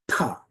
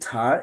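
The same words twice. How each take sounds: First: The t sound is explosive, with a burst. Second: The t sound is soft, without a burst. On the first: The speaker calls it right. "it's actually ta. It's a more implosive sound, explosive sound" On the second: The speaker calls it wrong. "This isn't ta"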